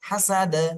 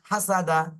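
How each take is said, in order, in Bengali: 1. শব্দটি কলকলা হরফে শেষ হয়। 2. শব্দটি খোলা স্বরে শেষ হয়।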